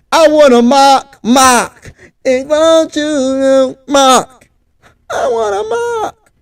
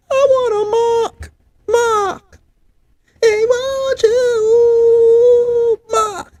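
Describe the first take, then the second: First: High, drawn-out wailing chant of I wanna mock; imitating a wailing chant. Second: Chanted, much higher, very slow, softer wail of I wanna mock; chanted, go all the way up and wail it out slowly; full wailing chant. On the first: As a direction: mimic the chant, stretch every word into a wail. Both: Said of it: "That's how they say it".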